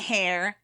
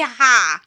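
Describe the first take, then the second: First: It is said with an American r at the end. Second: It is said with a British open vowel, no r. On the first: "we might go Hair" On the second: "It would be ha because of the way they pronounce Harry"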